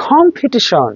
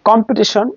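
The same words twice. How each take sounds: First: কম্পিটিশন higher, opening like খ; aspirated K. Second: কম্পিটিশন with a plain K, no puff; unaspirated K. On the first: Teacher correcting competition, aspirated কম্পিটিশন. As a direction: puff the K of কম্পিটিশন, pitch up. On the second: Teacher giving the usual form, unaspirated কম্পিটিশন. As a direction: keep the K of কম্পিটিশন breathless. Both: Shown as a demonstration. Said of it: "খর মতো উচ্চারণ হবে".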